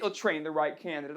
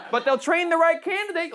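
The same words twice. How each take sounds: First: "They'll train the right candidate" repeated lower and much softer; mocking echo. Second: Said in the usual way. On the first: Shown as a demonstration. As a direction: mutter it back as a sarcastic echo.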